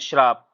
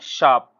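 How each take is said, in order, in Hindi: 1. यह शब्द 'shr' से शुरू होता है, इसमें r की ध्वनि है। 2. यह शब्द 'sh' से शुरू होता है, इसमें r की ध्वनि नहीं है। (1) "श्राप नहीं पढ़ते हैं हम" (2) "शुद्ध क्या होता है शाप"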